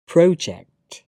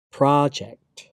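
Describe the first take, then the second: First: "project" as PROH-ject, with a rounded "oh"; British pronunciation. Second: "project" as PRAH-ject, with an open "ah"; American pronunciation. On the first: Teacher reading the British form of each pair, British pronunciation. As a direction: say "project" with an "oh" in the first syllable. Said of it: "I'm a British English native speaker". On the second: Teacher trying the American form, American pronunciation. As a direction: say "project" with an "ah" in the first syllable. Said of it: "my American pronunciation". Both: Shown as a demonstration.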